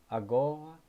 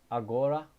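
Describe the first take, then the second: Both takes have the same delivery.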